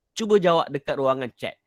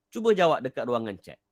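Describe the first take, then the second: No difference in how they are said.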